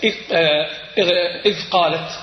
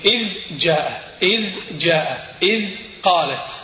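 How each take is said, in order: First: إذ قالت with the ذ assimilated into ق; the wrong way, ذ swallowed by قالت; dhal merged into qaf. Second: إذ قالت with the ذ held clearly before ق; clear dhal. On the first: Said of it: "وليس". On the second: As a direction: show the ذ of إذ distinctly. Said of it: "تقول". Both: Shown as a demonstration.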